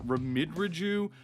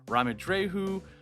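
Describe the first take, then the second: First: The name is said in an anglicized way. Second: The name is said in a Spanish way. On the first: The speaker calls it wrong. "which is super wrong" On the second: The speaker calls it right. "this is from Spain, so obviously it should be pronounced"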